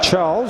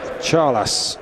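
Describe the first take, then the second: First: The name is pronounced the English way. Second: The name is pronounced the Spanish way. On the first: The speaker calls it wrong. "me giving it the English pronunciation" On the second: The speaker calls it right. "it's pronounced Charlas"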